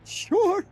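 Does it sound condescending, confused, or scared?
scared. It sounds scared.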